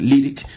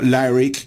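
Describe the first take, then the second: First: The name is pronounced the Spanish way. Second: The name is pronounced the English way. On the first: The speaker calls it right. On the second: The speaker calls it wrong. "no Lyriq como sería en inglés"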